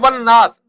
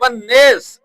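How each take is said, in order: First: The vowel in the last word is open 'aa'. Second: The vowel in the last word leans toward 'e'. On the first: One reciter reads it this way. "वो कहता है वन नास" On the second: Some other reciters read it this way. "तो बाद कारी क्या कहते हैं वन नेस"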